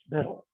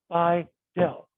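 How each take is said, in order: First: The name rhymes with 'little'. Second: The name does not rhyme with 'little'. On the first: This is how people in the South tend to say it. "that's what they tend to call it in the South" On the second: This is how the speaker personally says it. "I say Bi-Dil"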